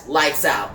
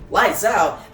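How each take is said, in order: First: Low, falling statement; mildly voiced low command; terse statement. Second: Lightly voiced indignant repeat; questioning echo. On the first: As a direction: say LIGHTS OUT low and final. Batman's order, echoed by Joker. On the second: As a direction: throw LIGHTS OUT back in mild protest. Joker echoes Batman in disbelief.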